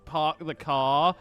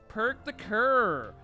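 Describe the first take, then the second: First: It is said in the speaker's ordinary accent. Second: It is said in an imitated Canadian accent.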